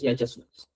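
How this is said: It uses the regional Cusco pronunciation. This is how people say it in that region. "en Cusco decimos"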